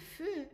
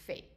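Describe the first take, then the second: First: The vowel is a rounded 'uh' sound. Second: The vowel is an open 'eh' sound. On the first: "If it's on its own, it's feu" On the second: "that E is pronounced like an A sound"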